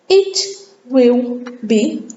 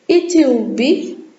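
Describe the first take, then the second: First: Each word is said separately and in full. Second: The words are squeezed together into a contraction.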